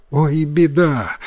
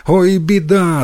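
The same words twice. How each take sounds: First: Drawn-out, subdued worried exclamation; a touch of worry, slow; mild alarm. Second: Higher-pitched worried exclamation; lightly acted boyish panic; growing alarm. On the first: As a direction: start to fret, holding it back. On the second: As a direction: fret aloud as the worry rises. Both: A narrator's reading. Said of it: "заволновался Йотаро".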